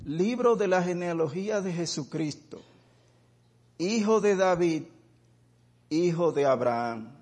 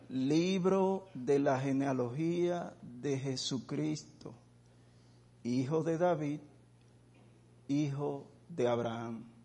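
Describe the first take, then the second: First: It is read at normal speed. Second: It is read very slowly.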